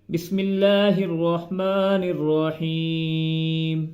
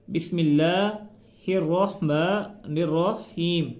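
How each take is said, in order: First: Slow chanted बिस्मिल्लाहिर्रहमानिर्रहीम with melody; sung, intone it slowly like Quran recitation; sung, melodic recitation. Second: Slow spoken बिस्मिल्लाहिर्रहमानिर्रहीम without melody; slow plain reading. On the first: Teacher chanting Bismillah melodically for pupils. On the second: Teacher reading Bismillah slowly and plainly. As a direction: read it slowly and evenly. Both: Shown as a demonstration. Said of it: "ठीक से अदा नहीं करते".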